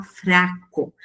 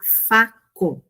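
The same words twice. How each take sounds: First: "fraco", with the R sounded right after the F; "fraco" as the correct form, full FR cluster; both consonants pronounced. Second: "faco", with no R after the F; "faco" as the contrasting form, single consonant F at the start; R dropped. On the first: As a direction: say "fraco" keeping both F and R audible. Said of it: "A gente pronuncia todas essas consoantes". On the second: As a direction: say "faco", going straight from F to the vowel. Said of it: "É diferente de falar faco". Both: Shown as a demonstration.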